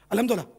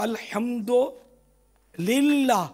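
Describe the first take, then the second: First: The phrase is rushed out quickly in one run. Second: The phrase is said slowly with a slight pause. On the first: The speaker calls it wrong. "इतनी स्पीड से बोलते हैं इसलिए गड़बड़ हो जाती है" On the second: The speaker calls it right. "थोड़ा रुक के बोले ना"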